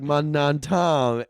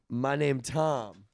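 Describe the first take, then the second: First: The word 'name' is blurred to sound like 'non'. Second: The word 'name' is said plainly and clearly. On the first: The speaker calls it right. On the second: The speaker calls it wrong.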